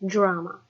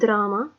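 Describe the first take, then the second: First: It begins with a J-like sound. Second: It begins with a plain D sound. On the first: The speaker calls it right. "drama with a J" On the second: The speaker calls it wrong. "not drama"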